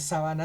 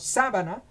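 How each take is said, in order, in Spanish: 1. El acento está en la segunda sílaba. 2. El acento está en la primera sílaba. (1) "sin tilde" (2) "si nosotros le ponemos una tilde allá en la A"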